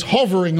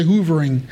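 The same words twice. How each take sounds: First: Hovering with short u as in love; correct pronunciation. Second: Hoovering said with oo, like the vacuum; wrong pronunciation. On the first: Preacher correcting the misreading, hovering said properly. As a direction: say hovering, huh-vering, not hoovering. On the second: Mocking how some people misread hovering, hoovering. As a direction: say hoovering with a long oo vowel. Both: Shown as a demonstration. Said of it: "It wasn't hoovering".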